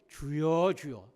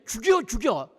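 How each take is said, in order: First: It is said slowly and unhurried. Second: It is said fast and run together.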